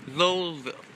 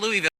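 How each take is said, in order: First: The name sounds like 'Lowellville'. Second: The name sounds like 'Louisville'. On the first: This is how the locals say it. The speaker calls it right. "you say it Lowellville" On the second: This is how outsiders say it. The speaker calls it wrong. "It's not Louisville"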